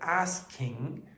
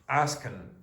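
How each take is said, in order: First: The word ends with a full ing sound. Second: The word ends with a short n sound. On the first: "If it ends in ing, very often it will be pronounced n, not ing" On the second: "you're generally going to get that glottal stop with the n sound"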